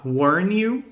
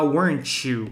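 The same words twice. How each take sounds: First: The t is dropped, giving an 'n-you' sound. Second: The t joins 'you' as a 'ch' sound. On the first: "formando esse som de new" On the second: "Formando esse som de T C H"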